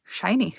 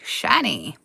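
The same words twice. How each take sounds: First: Said in the usual way. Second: Low, softer covetous croak on "shiny."; hoard-loving goblin saying "shiny."; "shiny." growled low like a creature eyeing treasure; creepy shiny. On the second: Acted. Echo in a different voice.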